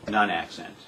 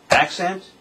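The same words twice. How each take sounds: First: "non-accent" dropped low and falling; unaccented. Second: ACCENT punched high and rising. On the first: Drum teacher demonstrating an unaccented note, dropped low. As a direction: let "non-accent" fall away low, without punch. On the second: Drum teacher demonstrating an accented note, punched high. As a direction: hit "accent" higher, pitch lifting at the end. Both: Shown as a demonstration. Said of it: "For example".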